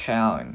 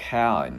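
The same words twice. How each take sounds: The two takes are said the same way.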